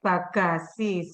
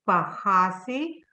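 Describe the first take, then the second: First: The middle consonant is a hard, strong g. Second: The middle consonant is a soft, h-like sound. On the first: This is how it is said in Indonesia. "here we say bagasi. So uh, there, G is uh, very strong" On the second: This is how it is said in the Netherlands. "we heard Janet say bahasi"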